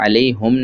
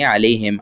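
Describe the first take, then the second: First: The pronoun is said with a u vowel. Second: The pronoun is said with an i vowel. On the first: The speaker calls it wrong. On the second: The speaker calls it right.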